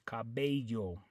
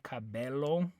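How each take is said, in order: First: The double L sounds like a Y. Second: The double L sounds like an L. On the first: The speaker calls it right. "the way you pronounce it is cabello" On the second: The speaker calls it wrong. "you don't say cabello"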